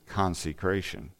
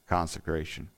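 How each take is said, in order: First: The second syllable has a long E vowel. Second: The second syllable has a short E vowel. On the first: The speaker calls it wrong. "I've always pronounced it consecration with the long E in there" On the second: The speaker calls it right. "but it's actually the sound"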